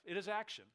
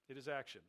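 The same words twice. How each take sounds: First: Action said high and firm; first strong statement of action; emphatic. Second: Said in the usual way. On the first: Acted. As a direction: lift the pitch on action, insist on it. Preacher stresses the key word.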